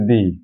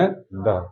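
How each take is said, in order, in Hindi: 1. यह शब्द लंबे 'ee' स्वर पर खत्म होता है। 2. यह शब्द छोटे 'uh' स्वर पर खत्म होता है। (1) "जब कोई वर्ड का पहला अक्षर वॉवेल होगा तो हम उसका उच्चारण करेंगे दी" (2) "जब फर्स्ट लेटर कॉन्सोनेंट होगा तब उसका उच्चारण करेंगे द"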